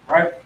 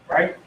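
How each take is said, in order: The two takes are said the same way.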